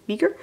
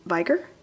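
First: "Viger" said as VEE-ger, rising and unsure; corrected pronunciation. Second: "Viger" said as VY-ger, long i; first pronunciation. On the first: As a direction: try "Viger" again as VEE-gur, questioning. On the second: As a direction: read "Viger" as VY-gur with a long i. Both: Real, not acted.

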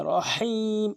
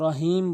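First: Slow রহিম with হ pushed from the throat; রহিম, strong throat হ, long ই; correct pressed ha. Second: রহিম with a light হ; plain unpressed h in রহিম; common mispronunciation. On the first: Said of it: "এভাবে চাপ দিয়ে বলতে হবে". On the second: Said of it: "অধিকাংশ লোক রহিম বলে". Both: Shown as a demonstration.

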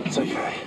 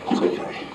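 First: Softer whispered reassurance; soothing whisper. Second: Soothing whisper. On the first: Angler calming the shark in his hands, soft whisper. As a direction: whisper it calm to the fish. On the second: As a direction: hush the fish gently. Soothing the shark. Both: Real, not acted.

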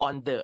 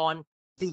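First: "the" as a short duh; rejected pronunciation. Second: "the" as thee before a vowel; correct "the". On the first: Retold or imitated. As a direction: imitate the wrong "the" with a schwa. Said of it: "ไม่ใช่ on the เนอะ". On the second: Shown as a demonstration. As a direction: say "the" with a long ee after "on". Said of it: "the ด้วยนะ ไม่ใช่ on the".

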